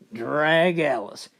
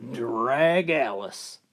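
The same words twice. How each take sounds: First: Slow drag. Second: Slow, heavy drag Alice; weary drawn-out punchline. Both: Acted.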